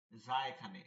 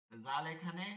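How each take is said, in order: First: Buzzing z on যা, pitched lower; tongue tip to lower teeth for যা. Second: Tongue tip on upper teeth for জাল; zal at upper teeth. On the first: Teacher placing za for pupils, buzzed z. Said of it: "সানাই সুফলা দাঁতের অগ্রভাগ". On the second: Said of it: "একটা হচ্ছে উপরের দাঁত". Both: Shown as a demonstration.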